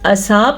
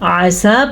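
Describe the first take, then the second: First: The first vowel is short. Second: The first vowel is long. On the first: The speaker calls it wrong. "असा पढ़ना गलत है" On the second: The speaker calls it right. "आसा पढ़ना दुरुस्त है"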